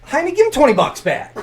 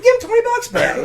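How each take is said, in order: First: Loud, high order; commanding teacher. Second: Squeaky, loud, over-the-top order; exaggerated high command. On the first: Retold or imitated. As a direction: tell him firmly to pay it back. Ordering refund. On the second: Repeating order, laughing.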